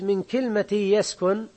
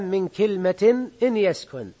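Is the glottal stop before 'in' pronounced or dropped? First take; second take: dropped; pronounced. First: The glottal stop is dropped and the words run together. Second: The glottal stop is pronounced and the nunation is clear. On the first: "كأنك أيضا حتى التنوين أذهبته" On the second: "لكن لو كانت همزة قطع اتضح التنوين"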